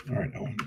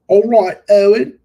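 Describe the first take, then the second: First: Said in the usual way. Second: Loud, high English accent. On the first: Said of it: "English accent". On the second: Shown as a demonstration. Greeting Owen in a mock English accent. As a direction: belt it out in a hammed-up English accent. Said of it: "It's my English accent".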